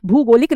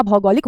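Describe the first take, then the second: First: भूगोलिक with "bhoo" at the start; wrong pronunciation. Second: भौगोलिक with open "bhau" at the start; correct pronunciation. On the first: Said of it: "भूगोलिक नहीं होता". (भूगोलिक में 'भू' की ध्वनि) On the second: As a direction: lower "BHAU-golik" for भौगोलिक. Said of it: "भौगोलिक होता है". (भौगोलिक में 'भौ' की ध्वनि) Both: Shown as a demonstration.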